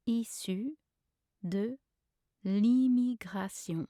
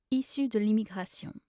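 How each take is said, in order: First: Slow, word by word with pauses; syllable by syllable. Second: Said in the usual way. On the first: Shown as a demonstration. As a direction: lay out each French syllable. Pronunciation guide, broken-down take.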